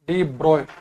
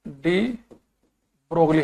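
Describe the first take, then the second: First: The g and l sounds are silent. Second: The g and l sounds are pronounced. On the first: The speaker calls it right. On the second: The speaker calls it wrong.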